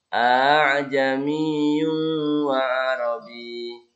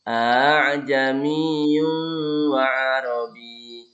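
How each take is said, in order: No difference in how they are said.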